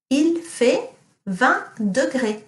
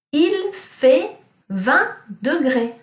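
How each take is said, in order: First: Il fait vingt degrés repeated slowly; teacher repeating Il fait vingt degrés for pupils; slow model sentence. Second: Il fait vingt degrés slow and higher; teacher quizzing class with Il fait vingt degrés; slow model sentence. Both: Shown as a demonstration. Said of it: "what does it mean if I say".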